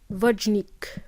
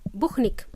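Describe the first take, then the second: First: The name is said as English speakers say it. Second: The name is said as Spanish speakers say it. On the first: "when the native speakers try to pronounce my name, they pronounce it as" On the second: "my Spanish friends, they pronounce my name as"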